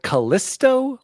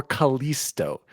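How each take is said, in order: First: "Callisto" with a short i, ka-LISS-toe. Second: "Callisto" with a long ee, ka-LEES-toe. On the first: Host asking co-hosts how it's said, short-i "Callisto". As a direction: say "Callisto" with the middle rhyming with "kiss". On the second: Host offering the other option, long-ee "Callisto". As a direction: say "Callisto" with the middle rhyming with "fleece". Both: Shown as a demonstration. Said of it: "we gotta clear this up".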